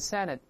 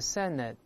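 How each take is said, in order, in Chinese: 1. 这个词是正常的快速读法。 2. 这个词读得慢，还拖长了。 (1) "读回来senate" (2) "读慢了叫senate"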